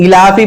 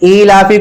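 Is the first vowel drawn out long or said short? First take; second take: short; long. First: The hamza vowel at the start is said short. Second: The hamza vowel at the start is drawn out. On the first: The speaker calls it wrong. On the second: The speaker calls it right.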